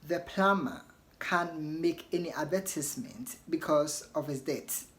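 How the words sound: It is said in a British accent. "So in British you want to say"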